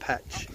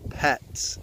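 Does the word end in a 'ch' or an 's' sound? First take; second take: ch; s. First: The word ends with a ch sound. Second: The word ends with an s sound. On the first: The speaker calls it wrong. "not Patch" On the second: The speaker calls it right. "Pats, not Patch"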